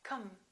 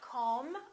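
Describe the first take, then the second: First: The vowel is reduced and weak. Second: The vowel is full and clear. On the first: The speaker calls it right. "The O and the I A are both reduced" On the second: The speaker calls it wrong. "it's not com"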